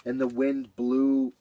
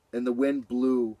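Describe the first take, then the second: No difference in how they are said.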